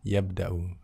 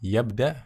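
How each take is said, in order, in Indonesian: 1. Kata ini berakhir dengan vokal akhir yang pendek. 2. Kata ini berakhir tanpa vokal akhir.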